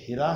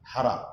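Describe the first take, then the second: First: The first vowel is a short 'i' sound. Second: The first vowel is an open 'a' sound. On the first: The speaker calls it right. "ये हिरा है" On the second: The speaker calls it wrong. "बेफतहिल हा परा हरा, ये गलत है"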